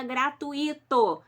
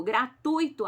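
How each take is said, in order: First: "gratuito" said gra-tu-Í-to, stress on the i, as four syllables; "gratuito" mispronounced with the i stressed as its own syllable; wrong stress example. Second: "Gratuito" said gra-TUI-to, stress on u, ui one glide; "Gratuito" in three syllables, ui together; correct pronunciation. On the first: Teacher showing students the common wrong "gratuito", stressing the i. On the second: Teacher giving students the correct "Gratuito", ui gliding as one. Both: Shown as a demonstration. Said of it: "Tá errado".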